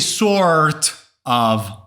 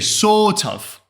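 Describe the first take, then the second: First: The R sound in sort is pronounced. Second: The R sound in sort is silent. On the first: The speaker calls it wrong. "You don't say sort of" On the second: The speaker calls it right. "in British accent, you do not pronounce the R sound. You say sort of"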